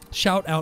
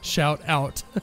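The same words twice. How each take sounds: First: The words are said loosely and less carefully. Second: The words are said more carefully and clearly. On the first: The speaker calls it wrong. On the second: The speaker calls it right.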